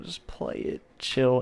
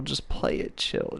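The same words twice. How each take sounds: First: Said in the usual way. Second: Whispered advice. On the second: Shown as a demonstration. Advice to viewers, said twice.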